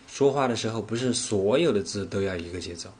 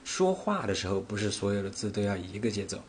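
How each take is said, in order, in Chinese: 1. 重音落在“不是所有”这些词上。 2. 重音落在“说话”这个词上。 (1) "我分别把重点放在了说话，不是所有，节奏这三个词上" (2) "我分别把重点放在了说话，不是所有，节奏这三个词上"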